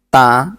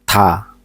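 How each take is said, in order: First: The consonant comes with no puff of air. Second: The consonant comes with a slight puff of air. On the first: "udaranya kita hilangkan dari ta, ta itu di sang diget" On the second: "seperti huruf tiet tetapi benar-benar sedikit"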